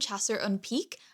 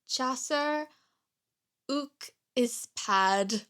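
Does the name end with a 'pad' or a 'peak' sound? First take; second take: peak; pad. First: The name ends with a 'peak' sound. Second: The name ends with a 'pad' sound. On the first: The speaker calls it wrong. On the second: The speaker calls it right.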